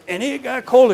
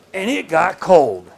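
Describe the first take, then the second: First: "and it got cold" pitched up and stressed on "cold"; emphatic repeat. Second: Said in the usual way. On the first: Acted. The storyteller stresses "cold" on the repeat of the line. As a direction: lift "cold" high for emphasis.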